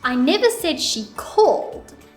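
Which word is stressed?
called. The stress falls on the word called. She did not call but maybe texted. "let's put it on the word called"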